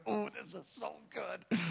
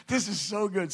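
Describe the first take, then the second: First: Soft, slow, blissful sigh; hushed, tired delight; weary but happy. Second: Said in the usual way. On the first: Retold or imitated. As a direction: savour it under your breath. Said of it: "weary but happy".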